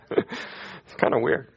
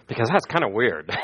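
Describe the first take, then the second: First: Hushed, slow whisper of the punchline; whispered aside. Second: Said in the usual way. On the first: Real, not acted. Preacher whispers the joke again to his congregation. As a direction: lean in and whisper it to the room.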